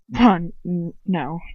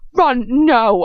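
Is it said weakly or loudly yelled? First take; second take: weakly; loudly yelled. First: It is said weakly and quietly. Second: It is yelled loudly.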